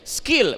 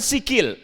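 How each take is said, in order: First: The s runs straight into the k. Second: An extra vowel separates the s and k. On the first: The speaker calls it right. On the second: The speaker calls it wrong. "bukan sikil"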